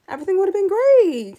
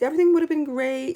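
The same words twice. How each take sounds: First: Louder and higher, gushing; excited. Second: Said in the usual way. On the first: Real, not acted. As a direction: sell the dream ending with a burst of excitement. Gushing over imagined better ending.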